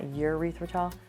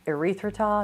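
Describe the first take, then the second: First: It begins with a 'yur' sound, like 'urethra'. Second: It begins with an 'eh' sound, like 'error'. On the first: The speaker calls it wrong. "I always say it wrong" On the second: The speaker calls it right. "Erythritol, not urethritol"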